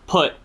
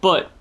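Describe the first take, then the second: First: It starts with a puffed P sound. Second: It starts with a softer B sound. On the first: "because that poofs the air out" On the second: "say B sounds instead of P sounds"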